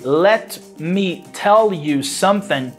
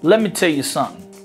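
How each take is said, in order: First: Each word is pronounced fully and separately. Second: The words are reduced and blended together. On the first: "when you say" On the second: "it's reduced to"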